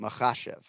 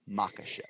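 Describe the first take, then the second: First: The middle consonant is a throaty ch sound. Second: The middle consonant is a plain hard k. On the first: The speaker calls it right. "Anytime you see K H, it's a ch" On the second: The speaker calls it wrong. "not Makhachev"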